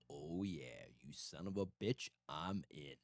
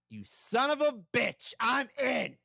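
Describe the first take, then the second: First: It is said in a deep voice. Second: It is said in a normal voice.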